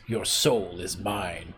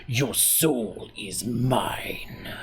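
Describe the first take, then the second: First: Slow, a touch softer villain line that still sounds merely spoken; a mild attempt at the Mortal Kombat voice; half-done villain voice. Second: Very slow, breathy whisper dragging out every word; whispered villain voice. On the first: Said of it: "even if I do the voice". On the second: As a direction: hiss the threat like a soul-stealing sorcerer. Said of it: "but you gotta put the". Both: Shown as a demonstration.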